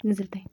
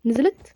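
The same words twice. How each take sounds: First: "نزلت اهي" low and soft, without a questioning rise; hushed confirmation. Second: "نزلت" rising sharply as a question; questioning rise. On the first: Player spotting the granny coming down, hushed confirmation. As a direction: state "نزلت اهي" quietly as a fact. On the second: Player checking if the granny came down, questioning. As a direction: ask "نزلت" with the pitch lifting at the end. Checks whether the enemy descended. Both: Real, not acted.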